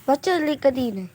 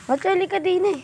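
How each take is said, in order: First: Said in the usual way. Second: Put-on much higher, childlike pitch. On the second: Shown as a demonstration. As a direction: say it up high like a kid. Same line, high put-on voice.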